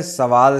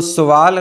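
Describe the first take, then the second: First: सवाल with short "a" after s; correct pronunciation. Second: सवाल said with "u" after s; wrong pronunciation. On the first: Teacher giving the right singular, correctly pronounced. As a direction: say "sa-waal" for सवाल. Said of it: "सवाल सही है". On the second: Teacher showing the wrong singular, mispronounced. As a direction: say "su-waal" for सवाल. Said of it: "सवाल गलत है". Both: Shown as a demonstration.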